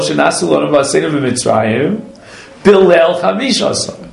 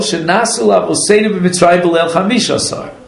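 First: A pause comes before B'Leil Chamishasar. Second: No pause before B'Leil Chamishasar.

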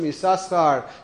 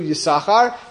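First: The name has two separate s sounds. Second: The name has a single s sound. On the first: "the Shin goes from Yisachar" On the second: "to Yisachar"

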